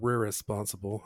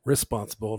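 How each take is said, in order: First: "re-responsible" with the first syllable doubled; stumbled word. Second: Said in the usual way. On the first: Shown as a demonstration. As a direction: trip over the start of "re-responsible". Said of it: "where my mouth was going". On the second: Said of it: "not re-responsible".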